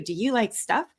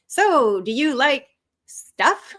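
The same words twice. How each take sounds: First: Said in the usual way. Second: Slow, higher awkward opener, drawn out; hesitant, stretched-out attempt at flirting; nervous small talk. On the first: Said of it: "If I said to you". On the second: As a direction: stall before a clumsy question to someone you fancy. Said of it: "nervously trying to get to know Lisa".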